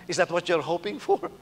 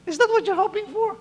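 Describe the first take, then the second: First: Said in the usual way. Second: Very high, squeaky-voiced question; high-pitched challenge. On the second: Real, not acted. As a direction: repeat the challenge far up in pitch.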